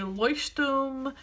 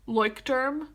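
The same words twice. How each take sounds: First: The word is pronounced the German way. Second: The word is pronounced the American way. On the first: "That is the German pronunciation" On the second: "like American people say Leuchtturm"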